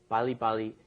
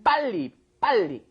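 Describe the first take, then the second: First: It is said softly without strong emphasis. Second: It is said forcefully with strong emphasis. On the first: The speaker calls it wrong. "don't say bali bali" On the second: The speaker calls it right. "It has to have a little strong emphasis in it"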